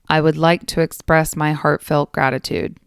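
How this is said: It is said in a flat, bored tone. The speaker calls it wrong.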